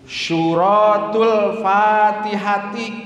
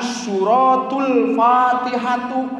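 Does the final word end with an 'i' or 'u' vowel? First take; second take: i; u. First: The last word ends with an i vowel. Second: The last word ends with a u vowel. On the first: The speaker calls it right. "Suratul Fatihati maosna teh kitu" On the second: The speaker calls it wrong. "jangan suratul Fatihatu"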